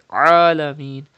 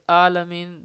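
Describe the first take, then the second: First: It begins with a tight sound from the throat. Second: It begins with a plain glottal stop. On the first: The speaker calls it right. "pronounce Ain from the middle part of the throat like Alameen" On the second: The speaker calls it wrong. "If you say Alameen, that means you are reading Hamza"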